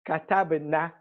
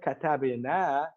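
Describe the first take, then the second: First: The final vowel is short. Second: The final vowel is long. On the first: A group of women wrote. The speaker calls it wrong. "if I were to say katabna by mistake" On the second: We wrote. The speaker calls it right. "I meant katabna"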